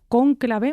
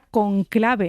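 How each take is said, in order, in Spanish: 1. La sílaba tónica es la primera. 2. La sílaba tónica es la segunda.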